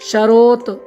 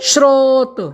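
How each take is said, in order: First: It opens with sh and a vowel before r. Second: It opens with s and r joined together. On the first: The speaker calls it wrong. "स्रोत को हम सरोत या शरोत तो नहीं बोलेंगे" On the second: The speaker calls it right. "सही जो उच्चारण होगा"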